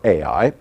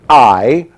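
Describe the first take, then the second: First: The name sounds like two vowels, 'ah-ee'. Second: The name sounds like the word 'eye'. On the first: "I prefer Ai" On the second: "Some pronounce it I"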